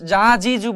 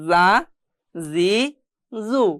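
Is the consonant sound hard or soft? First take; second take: hard; soft. First: The consonant is pronounced hard. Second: The consonant is pronounced soft. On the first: The speaker calls it wrong. "এখানে যা যা জি জু বলিনি" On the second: The speaker calls it right. "নরম করে পড়তে হবে"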